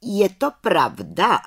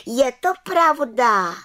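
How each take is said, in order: First: "Je to pravda" asked slowly, higher, as a question. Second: "je to pravda" called high, loud and slow; calling out. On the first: Head witch questioning the accused, asking "Je to pravda" slowly. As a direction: put "Je to pravda" as a slow, probing question. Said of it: "ptala se vrchní čarodějnice". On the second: Little witch confirming to the head witch, calling "je to pravda". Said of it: "volala malá čarodějnice". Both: A narrator's reading.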